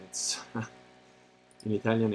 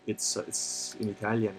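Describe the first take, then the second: First: Real laugh breaking into "It's in Italian". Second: Said in the usual way. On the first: Real, not acted. To the chat, amused that the text is in Italian, laughing. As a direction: laugh through the words "in Italian" as you repeat them. Repeats phrase, second time laughing.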